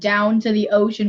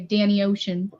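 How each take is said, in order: First: It is said in a standard accent. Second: It is said in a Baltimore accent.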